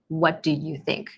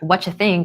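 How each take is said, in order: First: Each word is pronounced fully and separately. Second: The words blend together into a reduced form.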